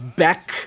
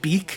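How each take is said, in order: First: The vowel is a short 'eh' sound. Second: The vowel is a long 'ee' sound. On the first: "he says beck" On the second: "instead of saying beak"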